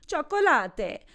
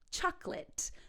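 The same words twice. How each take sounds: First: The word is said with three syllables. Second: The word is said with two syllables. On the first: The speaker calls it wrong. "instead of saying chocolate" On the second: The speaker calls it right. "the second O is also silent, two syllables, not three"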